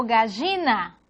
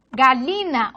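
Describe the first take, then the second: First: "gallina" with a buzzing zh, "gazhina". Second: "galina" with an ly in the middle, "galyina". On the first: Teacher showing variants of double L, zh sound. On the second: Teacher showing variants of double L, ly sound. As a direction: say "galina" with L gliding into y. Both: Shown as a demonstration. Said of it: "la L o E".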